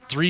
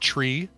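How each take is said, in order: First: The word starts with a th sound. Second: The word starts with a t sound. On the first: This is the everyday pronunciation. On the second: This is the radio pronunciation for clarity.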